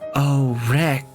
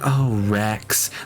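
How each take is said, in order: First: The name is said in a light, casual tone. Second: The name is said in a grave, solemn tone. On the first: The line ignores the emotional weight of the moment. The speaker calls it wrong. "they'll be like" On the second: The line reflects the emotional weight of the moment. The speaker calls it right. "saying their name like in a solemn"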